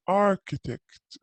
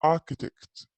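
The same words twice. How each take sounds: First: "architect" with a clear American R, "ar-kitekt"; American "architect", R sounded. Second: "architect" said as "ah-kitekt", R dropped; British "architect" with the R silent. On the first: Teacher showing students the American way, R pronounced. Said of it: "في الأمريكان accent يقولوا architect". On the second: Teacher showing students the British way, no R. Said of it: "في البريتش accent ما ينطقوا ال R". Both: Shown as a demonstration.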